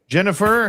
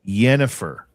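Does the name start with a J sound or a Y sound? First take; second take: J sound; Y sound. First: The name begins with a hard J sound. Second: The name begins with a soft Y sound. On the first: The speaker calls it wrong. "Or pardon me" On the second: The speaker calls it right. "You prefer a soft J"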